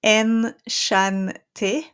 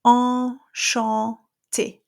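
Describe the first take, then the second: First: Enchanté with an English en and N sounded; anglicised French; wrong English take. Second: Enchanté very slow, open nasal en, no N; French nasal; drop jaw nasal. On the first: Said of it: "you're not gonna say". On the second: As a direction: stretch enchanté, jaw dropped. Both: Shown as a demonstration.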